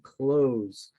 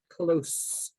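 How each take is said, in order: First: The final s sound is weak and lower. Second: The final s sound is strong and hissing. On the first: To shut something. "it's lower and the sibilance is not strong" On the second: Near to something. "this emphasizes the sibilance in the S more"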